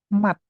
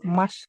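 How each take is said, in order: First: The word ends in a t sound. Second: The word ends in an s sound. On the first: The speaker calls it right. "Ini dibacanya adalah mat" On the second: The speaker calls it wrong. "Bukan mas"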